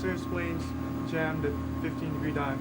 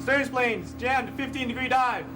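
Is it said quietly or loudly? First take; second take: quietly; loudly. First: It is said quietly. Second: It is said loudly, yelled.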